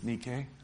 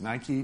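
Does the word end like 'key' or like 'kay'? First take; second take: kay; key. First: It is said the original Greek way. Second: It is said the common modern way. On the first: This is the original Greek pronunciation. The speaker calls it right. "but it's nike" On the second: This is the popular modern pronunciation. The speaker calls it wrong. "It's mispronounced in modern culture as Nike"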